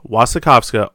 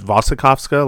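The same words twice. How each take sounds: First: The name begins with a W sound. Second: The name begins with a V sound. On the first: The speaker calls it wrong. "as opposed to the W" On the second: The speaker calls it right. "like there's a V pronunciation"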